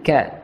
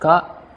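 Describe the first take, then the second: First: It is said with spread lips, sounding light. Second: It is said with an open mouth, sounding heavy. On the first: The speaker calls it right. "ditarik seperti kita tersenyum" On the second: The speaker calls it wrong. "kalau dibuka itu keliru ... akan terasa berat"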